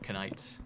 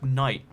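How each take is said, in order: First: The word starts with a K sound before N. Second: The word starts with a plain N sound. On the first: This is how the word was said long ago. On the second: This is how the word is said today.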